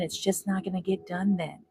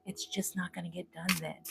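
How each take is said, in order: First: Said in the usual way. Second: Quiet echo. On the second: Retold or imitated. Echoes the voice she keeps hearing, much softer. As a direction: repeat it much softer, fading. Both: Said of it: "I keep hearing".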